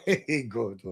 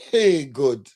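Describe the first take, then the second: First: Lower, softer, laughing through it. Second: Said in the usual way. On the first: Real, not acted. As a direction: chuckle the words out under your breath. Laughing repeat of the aside.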